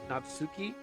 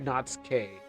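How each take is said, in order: First: The name ends with a 'kee' sound. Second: The name ends with a 'kay' sound. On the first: The speaker calls it right. "I hear Natsuki" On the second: The speaker calls it wrong. "I don't hear Natsuke"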